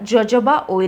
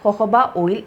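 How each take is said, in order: First: The word starts with a J sound. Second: The word starts with an H sound. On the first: The speaker calls it wrong. "ഇത് എഴുതുന്നത് ജോജോബ oil എന്നാണെങ്കിലും" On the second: The speaker calls it right. "ഇത് pronounce ചെയ്യുന്നത് ഹൊഹോബ oil എന്നാണ്"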